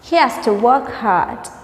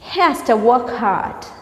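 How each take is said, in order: The two takes are said the same way.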